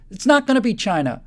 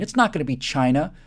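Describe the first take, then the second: First: Louder and higher, punching NOT; emphatic loud denial. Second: Said in the usual way. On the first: Real, not acted. Rallying an audience against a rival, loud defiant denial. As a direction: slam the door on the idea, forcefully. Building rebuttal, rising emphasis.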